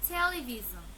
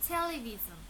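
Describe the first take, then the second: The two takes are said the same way.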